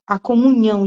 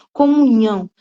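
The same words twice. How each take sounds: First: Comunhão said firmly with a falling close; stress on comunhão. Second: Comunhão set apart, louder, falling; stress on Comunhão. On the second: Preacher stressing Comunhão to the congregation, firm and final. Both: Shown as a demonstration. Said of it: "não oração".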